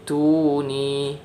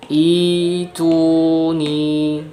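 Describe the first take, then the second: First: It starts with a glottal catch, joined on. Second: It starts with a long ee vowel. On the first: The word is read joined to the word before. "hamzah wasalnya ini kita tidak pakai karena disambung. Kemudian hamzah qata'nya ini yang kita baca" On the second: The reading starts from this word. "Hamzah wasal dibaca kasrah, kemudian hamzah qata'nya diganti jadi mad"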